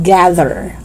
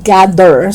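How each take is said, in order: First: "Gather" with buzzing TH; tongue out and humming mid "Gather"; voiced TH. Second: "gather" as "gadder"; hard D in "gather". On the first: Teacher correcting learners, "Gather" with voiced TH. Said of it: "T H voiced". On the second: Teacher showing learners the mistake, "gather" with D. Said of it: "pronouncing T H as D". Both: Shown as a demonstration.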